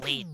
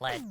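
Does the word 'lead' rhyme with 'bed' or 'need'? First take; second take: need; bed. First: The vowel is long, rhyming with 'need'. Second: The vowel is short, rhyming with 'bed'. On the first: It names something that leads. The speaker calls it right. "it was lead, not lead, so because it leads" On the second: It names the metal. The speaker calls it wrong. "not lead"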